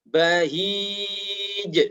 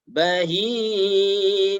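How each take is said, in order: First: The final j bounces with a firm, stopped closure. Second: The final j bounces but the sound flows on. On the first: The speaker calls it right. "seharusnya seperti itu" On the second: The speaker calls it wrong. "ada mengalir suaranya"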